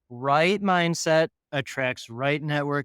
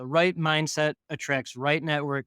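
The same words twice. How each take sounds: First: The phrase is spoken at a noticeably slower pace. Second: The phrase is spoken at a normal, quicker pace.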